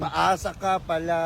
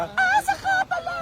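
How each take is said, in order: First: Said in the usual way. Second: High cracked squeal on "Paasa"; squeaky falsetto. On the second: Acted. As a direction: leap way up into falsetto on "Paasa ka pala".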